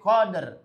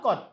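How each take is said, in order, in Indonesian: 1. Kata ini berakhir dengan bunyi r. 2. Kata ini berakhir tanpa bunyi r. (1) "tapi koder" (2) "Ini enggak kod. Kod itu artinya sesungguhnya"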